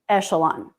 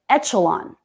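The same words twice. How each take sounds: First: The middle consonant is a sh sound. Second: The middle consonant is a ch sound. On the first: The speaker calls it right. "Shh, echelon" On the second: The speaker calls it wrong. "he said echelon with the C H sound"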